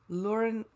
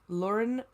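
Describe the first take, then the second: No difference in how they are said.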